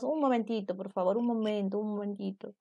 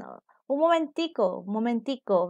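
First: Said in the usual way. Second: Venezuelan momentico. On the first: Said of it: "nosotros los peruanos decimos". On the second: Retold or imitated. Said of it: "algunos colombianos dicen".

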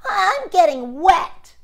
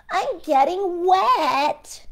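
First: High, loud and slow whine; worried gingerbread man. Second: High, slow drawn-out whine; worried gingerbread man. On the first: The gingerbread man complaining to the fox, high and loud. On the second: The gingerbread man complaining again to the fox, high and slow. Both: Acted.

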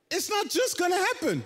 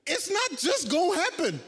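First: Just hit hardest, then falls; stress on just. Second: Not hit hardest, then falls; stress on not. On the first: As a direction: lean on the word just. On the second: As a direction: lean on the word not. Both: Shown as a demonstration. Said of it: "repeats line, shifting the stress".

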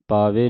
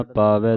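First: ਪਾਵੇ with a closed "e" ending; mispronunciation demo. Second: ਪਾਵੈ with an open "ai" ending; correct pronunciation. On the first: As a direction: say ਪਾਵੇ as "paa-vay", narrow final vowel. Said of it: "ਪਾਵੇ ਨਹੀਂ ਪੜ੍ਹਨਾ". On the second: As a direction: say ਪਾਵੈ as "paa-vai", wide final vowel. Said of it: "ਪਾਵੈ ਦਲਾਵਾਂ ਦੇ ਨਾਲ". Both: Shown as a demonstration.

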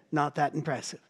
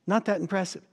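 First: Said in the usual way. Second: "Not" lifted and hit harder than the rest; stress on not. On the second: Shown as a demonstration. Preacher repeating himself to the congregation, leaning hard on "Not". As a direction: punch the word "Not" to drive the point home.

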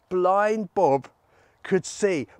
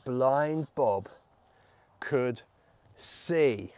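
First: Lively, emphatic good news; celebrating. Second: Halting, low delivery with pauses between words; suspenseful reveal. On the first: Storyteller celebrates Bob's healing, excited. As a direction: announce it with delight. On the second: Storyteller reveals the healing to children, halting and low. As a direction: hold back each word for suspense. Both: Acted.

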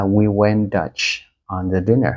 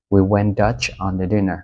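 First: Said in the usual way. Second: Slower "We went Dutch on the dinner", stress on "we"; slow model phrase. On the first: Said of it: "mình có thể nói là". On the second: Shown as a demonstration. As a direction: read it out slowly for learners. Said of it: "có nghĩa là". (đọc chậm câu ví dụ, nhấn vào "we")

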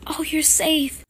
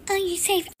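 First: Relieved gasp. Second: Much higher squeal of relief; overjoyed relief. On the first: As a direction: blurt out relief on seeing him. Wife sees husband home. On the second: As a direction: let the relief peak up high. Wife repeats in relief. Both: Acted.

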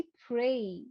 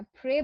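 First: প্রে slowed, ending in a gliding ey sound; right pronunciation. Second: প্রে with a flat, short e and no glide; wrong pronunciation. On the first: Teacher shows the right way to say pray. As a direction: draw out প্রে slowly into a gliding ay. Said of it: "আমি বলছি প্রে". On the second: Teacher shows the wrong pray to avoid. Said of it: "প্রে বলছি না". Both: Shown as a demonstration.

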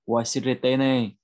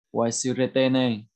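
The two takes are said the same way.

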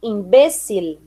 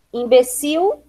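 First: "imbecil" as im-BÉ-cil, clear final L; Spanish stress. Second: Said in the usual way. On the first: Shown as a demonstration. Teacher reading the list, "imbecil" as Spanish im-BÉ-cil. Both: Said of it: "diferença entre as palavras heterotônicas".

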